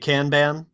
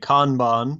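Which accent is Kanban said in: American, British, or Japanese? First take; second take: American; British. First: It is said with an American pronunciation. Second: It is said with a British pronunciation. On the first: "if you're in America, you're likely to say" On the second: "the rest of the world, I think, taking their lead from British English, would say"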